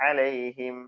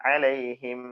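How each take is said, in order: No difference in how they are said.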